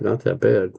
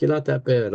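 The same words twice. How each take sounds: First: Not that bad repeated lower, dry and disbelieving; incredulous echo. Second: Said in the usual way. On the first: Patient repeating the EMTs' words back, dry disbelief. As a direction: throw their words back, deadpan.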